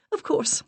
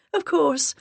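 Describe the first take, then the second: First: Much higher, breathy lady; high put-on agreement. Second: Much higher and louder, eager; high put-on agreement, a bit louder. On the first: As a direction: voice up an octave, light and sweet. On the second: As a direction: voice up an octave, repeating sweetly. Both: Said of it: "I raised my voice an octave".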